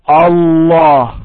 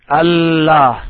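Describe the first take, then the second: First: The L sound is heavy and full. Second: The L sound is light and thin. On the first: The speaker calls it right. "The lam, the L should be heavy" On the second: The speaker calls it wrong. "Never say Allah"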